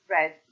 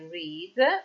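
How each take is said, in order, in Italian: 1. È pronunciata con una vocale breve, come 'red'. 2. È pronunciata con una vocale lunga, come 'reed'. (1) "bensì read" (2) "è scritto come al presente... però la pronuncia non è read"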